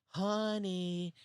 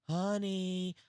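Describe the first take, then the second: No difference in how they are said.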